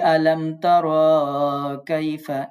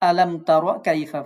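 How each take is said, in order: First: A short vowel is drawn out long. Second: The short vowels are kept short and quick. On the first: The speaker calls it wrong. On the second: The speaker calls it right.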